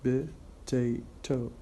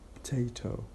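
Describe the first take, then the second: First: It is said with three syllables. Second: It is said with two syllables. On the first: "Instead of saying potato, three syllables" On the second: "we make it two syllables only"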